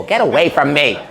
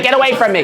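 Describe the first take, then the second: First: A touch of annoyance on Get away from me, normal pitch; mild dismissive brush-off. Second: Shouted brush-off. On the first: Casino bosses brushing off the TikToker, mildly irritated. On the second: Casino bosses shooing away the creepy old man, high loud yell. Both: Retold or imitated. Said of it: "they all went".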